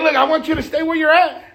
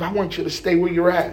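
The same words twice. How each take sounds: First: Devil's line pitched up high. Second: Devil. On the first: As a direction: insist as the devil, higher and livelier. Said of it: "He's like". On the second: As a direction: lower devil's voice, held back. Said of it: "That's how the devil do". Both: Acted.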